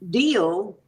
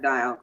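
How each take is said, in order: First: The vowel sounds like 'ee', as in deal. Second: The vowel sounds like 'eye', as in dial. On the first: The speaker calls it right. "I think it might be deal" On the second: The speaker calls it wrong. "not dial"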